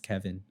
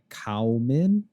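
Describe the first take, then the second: First: The name begins with a 'kev' sound. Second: The name begins with a 'cow' sound. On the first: The speaker calls it right. "there's no V in that anywhere, but it's Kevin" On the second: The speaker calls it wrong. "if you were to sort of try and phonetically say it, it would come out like Cowman"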